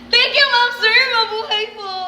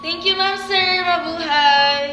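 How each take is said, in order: First: It is said in a happy tone. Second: It is said in a sarcastic tone.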